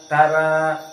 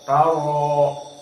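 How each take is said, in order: First: The r is pronounced light and thin. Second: The r is pronounced heavy and full. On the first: The speaker calls it wrong. "tidak dibaca seperti tara tara" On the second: The speaker calls it right. "tapi taro taro"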